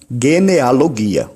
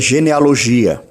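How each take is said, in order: First: The first consonant is a hard g sound. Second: The first consonant is a soft g sound. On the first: The speaker calls it right. "ela tem um som fechado, como em gato" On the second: The speaker calls it wrong. "nunca diga genealogia"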